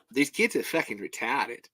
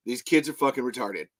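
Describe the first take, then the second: First: Understated put-on Aussie accent; Australian accent. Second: Said in the usual way. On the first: Shown as a demonstration. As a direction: say it lightly in Australian. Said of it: "However, the Australian accent". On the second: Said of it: "I'll do three then".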